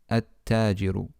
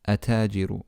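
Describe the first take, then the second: First: The L is silent and the T is doubled. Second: The L is silent and the T is single. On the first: The speaker calls it right. "the correct way to say it is at-tajiru" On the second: The speaker calls it wrong. "It's not correct to simply skip the lam and say atajiru"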